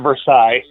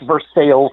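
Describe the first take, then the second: First: It uses a non-local pronunciation. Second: It uses the local Ohio pronunciation. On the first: Locals would object to this pronunciation. The speaker calls it wrong. "not Versailles" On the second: This is how the locals say the town's name. The speaker calls it right. "it is pronounced Versailles"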